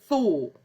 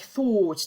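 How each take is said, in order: First: The final T sound is left out. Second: The final T sound is clearly pronounced. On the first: The speaker uses popular modern English. "They often cut the T out" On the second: The speaker sounds posh. "they will pronounce all the T's"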